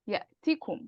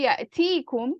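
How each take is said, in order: First: The first vowel is short and quick. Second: The first vowel is drawn out long. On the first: The verb is in the jussive form. The speaker calls it right. "You have to say ya'tikum, ya'tikum. It has to be quick" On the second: The verb is in the indicative form. The speaker calls it wrong. "If you say ya'tikum with a ya, then you're you're doing the marfu' version"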